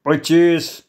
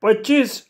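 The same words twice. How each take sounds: First: Firm, drawn-out figure; firm demand. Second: High-pitched shocked echo; dying, aghast cry. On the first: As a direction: state the price as a demand. Knife-holder coolly names his sum. (ठामपणे) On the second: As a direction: squeal it as if life is leaving you. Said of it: "शेठजी जीव गेल्यासारखा ओरडला". (जीव गेल्यासारखं ओरडून) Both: Acted.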